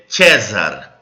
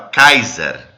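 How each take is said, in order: First: The word begins with a soft S sound. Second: The word begins with a hard K sound. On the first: The later pronunciation, not the ancient one. "você não falava é, César" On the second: The ancient pronunciation. "você falava Kaiser"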